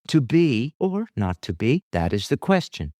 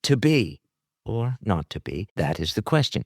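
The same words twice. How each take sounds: First: To be stressed, not to be thrown away. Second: Not to be stressed, To be light. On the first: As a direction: lean on To be, let not to be fall away. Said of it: "that gives the idea, the emphasis". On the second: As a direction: hit not to be hard. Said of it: "then the not to be is more important". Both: Shown as a demonstration.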